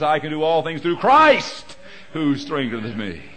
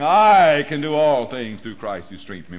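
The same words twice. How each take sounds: First: The stress falls on the word Christ. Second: The stress falls on the word I. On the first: The strength comes from God. The speaker calls it right. "The emphasis is in His hand and His power" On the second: The strength comes from oneself. The speaker calls it wrong. "I had the emphasis on the wrong syllable"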